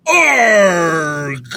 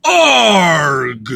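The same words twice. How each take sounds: First: Loud mock pirate "Arg"; pirate growl. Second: Loud pirate "Arg" without the squeaky tail; pirate growl. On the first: Trying out a pirate sound on the podcast, loud mock growl. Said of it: "Gotta work on my pirate shit". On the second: Pretend. Practicing a better pirate sound, a loud growl. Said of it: "I think that was better".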